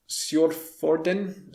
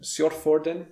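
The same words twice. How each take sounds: First: Sjordfjorden said slowly with Norwegian vowels and a rising end; careful Norwegian attempt at Sjordfjorden, drawn out; Norwegian pronunciation. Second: Sjordfjorden repeated at normal pace with Norwegian vowels and a rising end; quicker Norwegian Sjordfjorden; Norwegian pronunciation. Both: Shown as a demonstration. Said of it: "attempt to pronounce some Norwegian place names".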